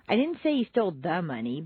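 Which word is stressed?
the. The stress is on the word the.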